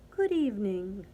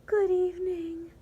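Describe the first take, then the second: First: Lower, understated cricket voice; a lightly croaked greeting; croaking cricket. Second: Lovestruck sigh. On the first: Cricket greeting the cockroach at night, lightly croaking. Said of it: "croaked the cricket". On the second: Martina greeting the cricket she loves, high and sighing. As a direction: sigh it out, smitten. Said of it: "sighed La Cucaracha Martina". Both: A narrator's reading.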